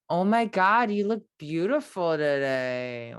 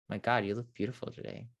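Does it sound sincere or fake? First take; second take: fake; sincere. First: It sounds fake and exaggerated. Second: It sounds sincere and heartfelt.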